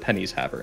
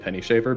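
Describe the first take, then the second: First: The s sound ends the first word. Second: The s sound begins the second word. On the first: The speaker calls it wrong. "you can pronounce it Pennies Haver instead" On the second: The speaker calls it right. "one hundred percent actually Penny Shaver"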